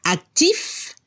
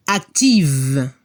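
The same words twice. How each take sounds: First: Actif ending on a clear F; French actif, rising, with an unvoiced F ending; final F sounded. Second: Active ending on a buzzing V like a bee; French active, low, long voiced V, silent E; final V sounded. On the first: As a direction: lift actif upward and finish on the F. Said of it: "se debe escuchar la F". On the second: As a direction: drop the pitch and hum the V in active. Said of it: "se escucha el sonido V". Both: Shown as a demonstration.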